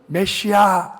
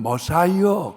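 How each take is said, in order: First: It is said as meh-see-ah. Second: It is said as muh-sigh-uh. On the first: "히브리 사람들은 메시아 이렇게 발음을 하죠" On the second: "영어로는 머사이어 그렇게 발음하고요"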